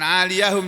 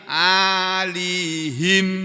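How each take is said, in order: First: The middle 'ya' is voiced and ends in 'hum'. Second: The middle 'ya' is silent and ends in 'him'. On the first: Above them there is thin silk. "ya-nya di fathah ini loh ... kemudian ha-nya di dhammah" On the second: They wear clothes of thin silk. "ya-nya disukun ... di kasrohnya huruf ha"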